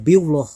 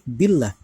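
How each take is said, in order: First: The lam of Allah is pronounced thick. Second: The lam of Allah is pronounced thin. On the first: The speaker calls it wrong. "nggak boleh dibaca" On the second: The speaker calls it right. "wajib dibaca tipis atau tarkik"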